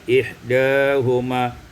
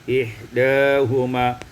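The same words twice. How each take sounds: Both takes have the same delivery.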